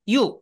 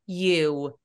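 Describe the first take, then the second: First: The letter name is cut off short. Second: The letter name is drawn out longer. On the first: The speaker calls it wrong. "U 이렇게 끝나는 것보다는" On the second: The speaker calls it right. "조금 길게"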